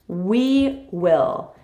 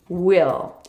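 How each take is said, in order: First: We and will are said as two full words. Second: It is contracted to sound like one word.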